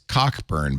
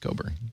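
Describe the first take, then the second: First: The middle k sound is clearly pronounced. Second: The middle k sound is silent. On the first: It follows the spelling. The speaker calls it wrong. "but I don't think he wants me to pronounce it that way" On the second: It is how the owner says the name. The speaker calls it right. "I think it is pronounced Coburn"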